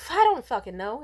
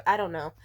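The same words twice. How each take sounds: First: Louder, exasperated burst on fucking; exasperated outburst. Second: Said in the usual way. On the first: Real, not acted. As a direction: blurt it out fed up. Frustrated rant about former friends.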